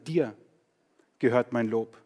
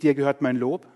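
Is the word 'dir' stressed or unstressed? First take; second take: stressed; unstressed. First: The word 'dir' carries the main stress. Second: The word 'dir' carries no special stress. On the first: Praise belongs to God and to no one else. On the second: The sentence simply states that praise belongs to God.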